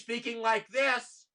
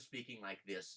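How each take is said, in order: First: It is said loudly, almost shouting. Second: It is said at a normal, moderate volume. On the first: Everyone has to raise their voice to be heard. The speaker calls it wrong. "everybody is talking too loudly" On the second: People talk at a sensible level. The speaker calls it right. "in a reasonable voice"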